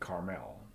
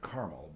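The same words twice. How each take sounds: First: Carmel is pronounced the way Israelis say it. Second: Carmel is pronounced the usual English way. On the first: "over there in Israel they call it Carmel" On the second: "We pronounce it Carmel"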